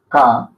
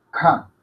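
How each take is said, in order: First: K low, firm and rising; first K sound. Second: K short and falling, less forceful; second K sound. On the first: Teacher drills the contrast, first K low and firm. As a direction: start K low and push it upward. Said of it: "Que esto es K". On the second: Teacher drills the contrast, second K short and falling. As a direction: drop K off quickly. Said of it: "y esto es K". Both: Shown as a demonstration.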